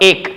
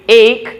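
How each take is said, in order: First: "ache" with a flat, single long e; wrong pronunciation. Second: "ache" as "eyk" with a glide; correct pronunciation. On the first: Teacher showing learners the mistake, "ache" as a glideless "ek". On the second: Teacher correcting for learners, "ache" as a gliding "eyk". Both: Shown as a demonstration. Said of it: "not ache".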